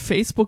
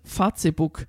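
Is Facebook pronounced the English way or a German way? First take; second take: English; German. First: Facebook is pronounced the English way. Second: Facebook is pronounced a German way. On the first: The speaker calls it right. "Die sagt statt Facebook" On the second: The speaker calls it wrong. "die hat auch noch manchmal ein Problem mit Englisch"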